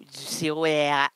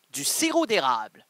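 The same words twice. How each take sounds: First: "sirop érable" said without the d, érable clipped; fumbled érable. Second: "sirop d'érable" said carefully with the d; correct pronunciation. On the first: Stumbling over the word while giving cooking advice, clipped. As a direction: drop the d in "sirop érable" and swallow the end. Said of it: "j'ai la misère à parler". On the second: Correcting himself on the hard word, careful. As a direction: say "sirop d'érable" cleanly, d sounded. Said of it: "C'est pas facile à dire". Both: Shown as a demonstration.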